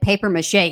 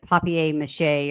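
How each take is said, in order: First: The word is pronounced in a plain English style. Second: The word is pronounced in a fancy French style. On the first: "is basically what he's saying" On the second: "they were saying it fancy"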